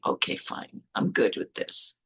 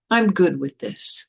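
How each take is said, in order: First: Low, muted concession, acted out; quiet acceptance. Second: Slow, spaced-out affirmation with a rise; deliberate acceptance. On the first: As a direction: concede under your breath, pitched way down. Retold private acceptance of the book. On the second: Retold or imitated. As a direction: affirm it slowly, in full voice. Repeats the acceptance more decidedly.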